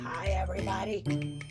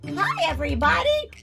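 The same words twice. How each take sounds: First: The greeting sounds unfriendly in tone. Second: The greeting sounds friendly in tone. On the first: The speaker calls it wrong. "That doesn't sound very friendly" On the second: The speaker calls it right. "Ooh, I like that one"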